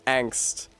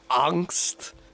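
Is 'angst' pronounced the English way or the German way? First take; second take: English; German. First: The word is given an ordinary English pronunciation. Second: The word is given a German-sounding pronunciation. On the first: "in English that's pronounced angst" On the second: "with a little stink on it like that, like she's code switching to German"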